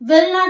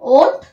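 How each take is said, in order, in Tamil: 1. இரண்டு முழு வார்த்தைகளும் தனித்தனியாகச் சொல்லப்படும். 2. அது ஒரு சிறிய வார்த்தையாக சுருக்கப்படும்.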